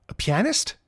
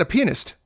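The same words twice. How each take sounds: First: "pianist" as pee-AN-ist, rising in question; questioning pronunciation. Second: "pianist" squeezed into PEE-nist, falling; slurred pronunciation. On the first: Student checks the teacher's word, "pianist" said pee-AN-ist, higher and questioning. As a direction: query "pianist" with stress on a clear AN in the middle. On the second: Old teacher insists to student, "pianist" said like PEE-nist, pitched up. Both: Retold or imitated. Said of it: "That's what I said".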